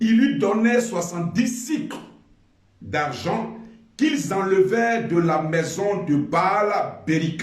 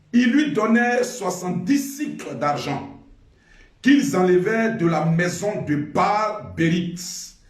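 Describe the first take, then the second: Both takes have the same delivery.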